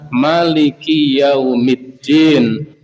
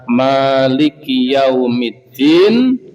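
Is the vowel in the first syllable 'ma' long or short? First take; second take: short; long. First: The first vowel 'ma' is kept short. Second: The first vowel 'ma' is held long. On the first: "bisa dibaca pendek" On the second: "Ma bisa dibaca panjang"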